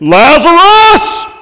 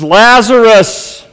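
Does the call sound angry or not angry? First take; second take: angry; not angry. First: It is yelled and sounds angry. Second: It is loud but does not sound angry.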